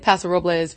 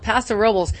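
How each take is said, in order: First: Robles is said with a Spanish pronunciation. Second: Robles is said with an anglicized local pronunciation. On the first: This is how outsiders often want to say it. "that's the Spanish pronunciation" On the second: This is how the town's residents say it. "Locals call it Paso Robles"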